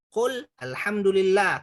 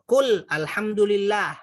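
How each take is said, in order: Both takes have the same delivery.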